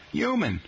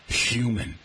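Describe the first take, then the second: First: Human said yoo-man, no H; silent h. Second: Human with a clear H, hyoo-man; h pronounced. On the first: Host demonstrates New York speech, human without H. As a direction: drop the h in human. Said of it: "H as silent". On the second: Host demonstrates the standard way, human with the H. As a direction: sound the h in human. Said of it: "most Americans pronounce the H". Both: Shown as a demonstration.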